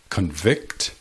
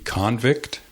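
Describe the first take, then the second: First: Convict as a verb, con-VICT; stress on second syllable. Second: Convict as a noun, CON-vict; stress on first syllable. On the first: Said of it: "emphasizing the second syllable". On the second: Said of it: "emphasizing the first syllable". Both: Shown as a demonstration.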